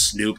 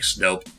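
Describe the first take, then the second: First: The vowel sounds like 'oo' in 'food'. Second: The vowel sounds like 'oh' in 'rope'. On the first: The speaker calls it wrong. "I used to always mispronounce it as Snoop" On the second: The speaker calls it right. "but actually no, it's it's like Snope"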